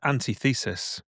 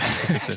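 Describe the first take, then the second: First: It is split as 'anti' plus 'thesis'. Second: It is said with stress on 'tith'. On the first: The speaker calls it wrong. "we thought that was how it was pronounced at the time" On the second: The speaker calls it right. "We didn't know it was called Antithesis"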